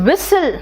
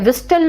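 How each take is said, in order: First: The word is said with no t sound. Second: A clear t sound follows the s. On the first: The speaker calls it right. "It's विसल" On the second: The speaker calls it wrong. "विस्टल नहीं है बेटा"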